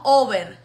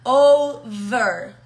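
First: Spanish-accented "over" with a lax B sound; wrong Spanish-style V. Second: "Over" with a buzzing V, loud and drawn out; teacher's slow, loud "Over" with a voiced V; vibrating English V. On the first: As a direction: say "over" like "ober", no buzz on the V. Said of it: "No over". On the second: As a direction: buzz the V in "Over", teeth on lip. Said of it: "la vamos a meter la vibración". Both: Shown as a demonstration.

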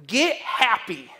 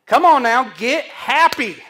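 First: Said in the usual way. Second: Much louder, slow and pressing; loud exhortation. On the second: Acted. Preacher rousing the congregation to rejoice, loudly. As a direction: shout it out to rouse the room.

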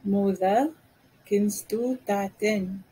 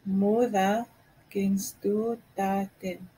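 First: Said in the usual way. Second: A slow careful model take; slow, in two parts. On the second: Shown as a demonstration. Teacher slowly repeating the phrase for learners. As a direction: pause after Moeder then say kennst du Taten slowly. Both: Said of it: "I don't understand you".

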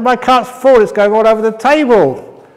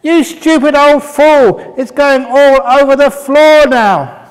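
First: Much higher and louder, an annoyed complaint; a guest losing patience, raising his voice; irritated. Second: Very high, loud and slow, hurling an insult; furious shout. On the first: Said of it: "I said, I said". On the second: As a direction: yell it at the old man, outraged. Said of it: "And the monk just smiled". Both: Acted.

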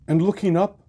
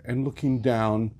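First: Looking up lifted high and louder; rising up. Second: Sinking down. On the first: Narrator looking aloft, voice lifted high. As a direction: let And looking up climb high and ring out. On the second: Narrator contrasting up and down. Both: A narrator's reading.

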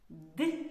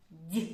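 First: Д as hard "d" for repeating; short, isolated Д, not palatalized; hard consonant. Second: Д as palatalized "d'" for repeating; short, isolated Д with raised tongue; soft consonant. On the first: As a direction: model a firm hard Д with a dark release. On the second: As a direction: model a soft Д like "dyi". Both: Shown as a demonstration. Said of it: "Повторюйте за мною".

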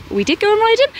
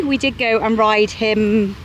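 First: Mock disbelief. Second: Said in the usual way. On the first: Echoes own line as question.

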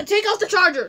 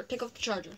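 First: Urgent, raised voice; loud. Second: Said in the usual way. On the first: Real, not acted. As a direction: call it out loud and quick. Urgent instruction to friend.

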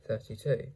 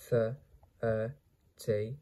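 First: Said in the usual way. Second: "thirty-two" slowly as Th, er, ty, two; sounded out. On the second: Shown as a demonstration. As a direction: break "thirty-two" into slow separate sounds. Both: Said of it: "How to pronounce this word?".

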